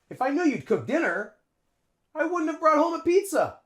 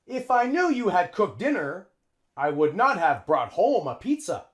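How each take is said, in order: First: The auxiliary verbs are contracted and linked together. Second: The auxiliary verbs are said fully and separately. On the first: The speaker calls it right. "A native English speaker would say" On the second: The speaker calls it wrong. "Native English speakers don't say that"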